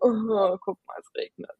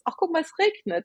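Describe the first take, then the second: First: It sounds negative and complaining about the rain. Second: It sounds cheerful and pleased about the rain.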